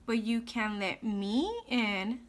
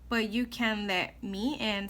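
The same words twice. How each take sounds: First: The word me is emphasized and stretched out. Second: The word me is said plainly, not stretched.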